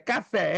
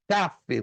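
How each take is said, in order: First: The stress is on the last syllable. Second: The stress is on the first syllable. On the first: The speaker calls it wrong. "Tem um aluno que cismou que era café. Café, errou" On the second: The speaker calls it right. "Você dá a entonação na primeira sílaba"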